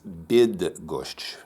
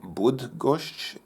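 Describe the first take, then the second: First: The first vowel is an 'i' sound. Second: The first vowel is an 'oo' sound. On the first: The speaker calls it right. "the actual proper pronunciation... like the English word bid" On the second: The speaker calls it wrong. "I was pronouncing the Y as if it's Russian... makes an U sound"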